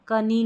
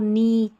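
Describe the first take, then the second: First: The word begins with a k sound. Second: The word begins with an n sound. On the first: The speaker calls it wrong. "कनी नहीं पढ़ते हैं" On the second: The speaker calls it right. "इसको नी"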